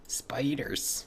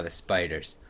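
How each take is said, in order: First: Hushed, whispered mock dread; spooky whisper. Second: Said in the usual way. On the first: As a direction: whisper it like a creepy warning. Repeats the word in mock dread.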